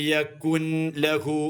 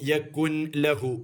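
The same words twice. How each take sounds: First: The n is pronounced separately before lahu. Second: The same.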